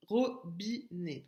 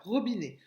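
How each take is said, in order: First: "robinet" cut into three separate beats; syllable by syllable. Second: Said in the usual way. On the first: Shown as a demonstration. Teacher correcting the exercise with pupils, "robinet" syllable by syllable. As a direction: say "robinet" slowly as ro, bi, né. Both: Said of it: "donc trois syllabes".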